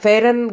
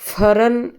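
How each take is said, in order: First: The word is said in a non-Kashmiri way. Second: The word is said the Kashmiri way. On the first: The speaker calls it wrong. "गलत उच्चार है" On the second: The speaker calls it right. "Kashmiri में फरन ऐसा अ, उसका उच्चारण है"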